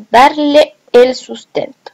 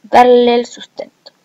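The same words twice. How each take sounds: First: "darle el" said slowly as two separate words; दोनों स्वर अलग. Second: "darle el" merged into "darlel", one e dropped; vowels run together. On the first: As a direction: keep both e's apart in "darle el". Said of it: "acá deberá decir "a quienes darle el sustento". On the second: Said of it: "omite la E y dice". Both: Shown as a demonstration.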